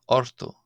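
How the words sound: The middle consonant is pronounced as an r. This is the Ulster dialect form. "in Ulster, sometimes for a T it can be pronounced as an R"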